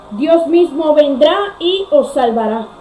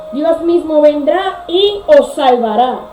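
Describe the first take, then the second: Both takes have the same delivery.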